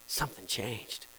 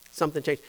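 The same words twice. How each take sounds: First: Softly, lower, in wonder; awed hush. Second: Said in the usual way. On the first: Retold or imitated. Baptized person telling of change, hushed in awe. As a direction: breathe it out amazed.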